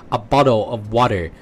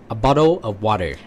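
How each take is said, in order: The two takes are said the same way.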